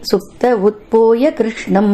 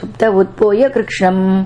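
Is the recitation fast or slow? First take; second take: slow; fast. First: It is recited slowly, word by word. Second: It is recited quickly, with sounds swallowed. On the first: It is split up so that it can be understood. "நிதானமாக சொல்லும்பொழுது" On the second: Some sounds get lost and are not heard. "இந்த மாதிரி நம்ம வந்து வேகமா சொல்லினோம்னா வார்த்தைகளை வந்து முழுங்கிடுவோம்"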